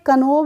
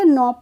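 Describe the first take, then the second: First: The word starts with a k sound. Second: The word starts with an n sound. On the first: The speaker calls it wrong. "कनोब नहीं पढ़ेंगे इसको" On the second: The speaker calls it right. "नॉब पढ़ेंगे"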